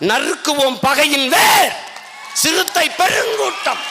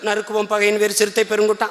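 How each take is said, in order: First: The line is said with strong, forceful energy. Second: The line is said flatly, without force. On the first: The speaker calls it right. "Tamil பேச்சு மொழி இல்ல, வீச்சு மொழி" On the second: The speaker calls it wrong. "அப்படி சொல்லக்கூடாது ராஜா"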